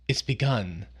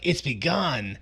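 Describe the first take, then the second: First: It is said in a regretful, rueful tone. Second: It is said in a pleased, triumphant tone. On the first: He regrets what he has set in motion. "he almost has a rueful tone of voice of" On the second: He is glad about what he has set in motion. "he wasn't like"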